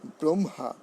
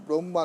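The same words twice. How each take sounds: First: ব্রহ্মা as "brom-ha", h sounded; correct pronunciation. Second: ব্রহ্মা said "bromma", h missing; wrong pronunciation. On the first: Teacher correcting the class, careful "brom-ha". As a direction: put an audible h after m in ব্রহ্মা. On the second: Teacher showing the class the error, h-less "bromma". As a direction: double the m in ব্রহ্মা, no h. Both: Shown as a demonstration. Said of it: "ব্রহ্মা নয়".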